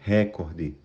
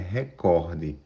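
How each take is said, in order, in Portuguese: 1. A sílaba tônica é a primeira. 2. A sílaba tônica é a segunda. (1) "Não existe a palavra recorde" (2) "É recorde"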